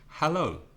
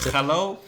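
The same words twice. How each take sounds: First: The first sound is a soft breath of air. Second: The first sound is a harsh scrape in the throat. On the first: The speaker calls it right. "That's the sound you need with most words beginning with H" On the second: The speaker calls it wrong. "The typical Spanish ch"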